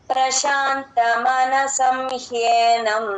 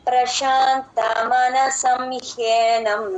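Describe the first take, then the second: The two takes are said the same way.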